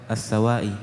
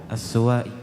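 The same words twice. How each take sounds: The two takes are said the same way.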